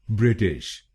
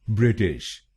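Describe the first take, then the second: Both takes have the same delivery.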